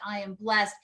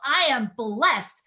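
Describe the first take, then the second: First: It is read flatly without energy. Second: It is said with strong energy.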